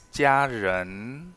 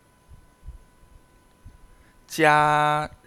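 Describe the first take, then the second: First: Said in the usual way. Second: 家人 stretched very slowly, 人 rising clearly upward; drawn-out second tone. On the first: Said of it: "la palabra clave es". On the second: Shown as a demonstration. Teacher demonstrating the rising second tone of 家人 for students. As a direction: pull out 家人 so the rising second tone on 人 is heard. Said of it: "segundo tono hacia arriba".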